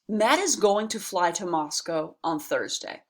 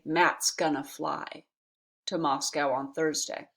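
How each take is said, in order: First: It is said slowly with full, unreduced words. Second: It is said quickly with contracted, reduced words.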